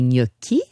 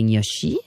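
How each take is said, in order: First: The middle consonant is a k sound. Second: The middle consonant is a sh sound. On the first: The speaker calls it right. "comme des gnocchi" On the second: The speaker calls it wrong. "pas des gnocchi"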